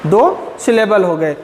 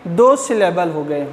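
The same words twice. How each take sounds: The two takes are said the same way.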